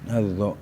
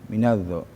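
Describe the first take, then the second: No difference in how they are said.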